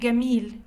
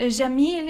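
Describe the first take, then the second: First: The word begins with a hard g sound. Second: The word begins with a j sound. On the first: "it would be Gamil in Egyptian Arabic" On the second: "in modern standard Arabic"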